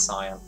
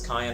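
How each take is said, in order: First: It is said as two syllables, SIGH-an. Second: It is said like the pepper, kai-EN. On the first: "I think you usually say it's cyan" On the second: "I think I'm thinking of like cayenne pepper, and I just said it that way"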